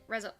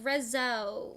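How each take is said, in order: First: The word is said short and clipped. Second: The word is drawn out and longer. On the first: This is how British people say it. "and we are like" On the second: This is how Americans say it. "You guys make the rezo sound longer than British people do"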